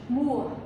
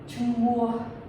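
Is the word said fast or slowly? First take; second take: fast; slowly. First: The word is said fast. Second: The word is said slowly.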